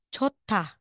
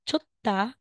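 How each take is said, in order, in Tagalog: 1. Aspirado ang gitnang katinig, may lumalabas na hangin. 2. Plain ang gitnang katinig, walang lumalabas na hangin. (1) "magiging chota" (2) "Instead na sasabihin mong chutta"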